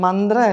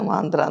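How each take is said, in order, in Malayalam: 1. ആദ്യ സ്വരം ഹ്രസ്വമാണ്. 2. ആദ്യ സ്വരം ദീർഘമാണ്. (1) "ശരിക്കും മന്ത്ര അല്ല" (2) "മാന്ത്രയാണ്"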